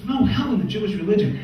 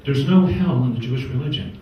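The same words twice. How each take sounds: First: Higher, outraged echo of the line; indignant disbelief. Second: Said in the usual way. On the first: Retold or imitated. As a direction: repeat it back like you can't believe it. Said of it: "He goes".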